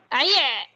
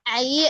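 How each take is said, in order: First: The final sound is pressed hard in the throat. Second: The final sound is loose, not pressed in the throat. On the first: The speaker calls it right. "ai-nya dapat tapi ditekan lagi" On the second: The speaker calls it wrong. "Ini belum ditekan. Nanti kayak cuman bilang a, ai"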